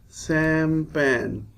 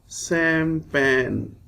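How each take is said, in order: The two takes are said the same way.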